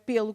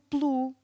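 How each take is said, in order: First: The first vowel is fully pronounced. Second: The first vowel is nearly silent. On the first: It is how many people wrongly say it. The speaker calls it wrong. "e não é pelo, como muita gente diz" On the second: It is the preposition. The speaker calls it right. "que é a preposição"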